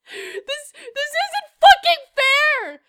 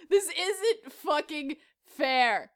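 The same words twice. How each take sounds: First: High, drawn-out outraged whine; mock anger. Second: Low, soft and very slow; subdued repeat. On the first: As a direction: cry out slowly at the injustice. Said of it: "I'm so fucking angry". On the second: Pretend. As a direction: say it slowly, deflated after an outburst. Same complaint repeated, subdued.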